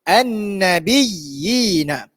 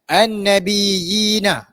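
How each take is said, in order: First: The doubled y is pressed and held. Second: The doubled y is rushed without pressing. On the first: The speaker calls it right. "kita kena tekankan pada ya yang pertama sebab dia bertanda sabdu" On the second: The speaker calls it wrong. "jangan tibai an-nabiyyina ... itu tak jadi"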